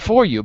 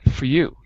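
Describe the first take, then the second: First: The vowel in 'for' is full and separate. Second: The vowel in 'for' is reduced and linked. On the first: The speaker calls it wrong. "not for you" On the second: The speaker calls it right. "but for you"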